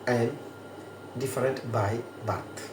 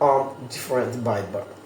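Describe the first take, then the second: First: 'I am' is said as two full words. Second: 'I am' is contracted into one syllable.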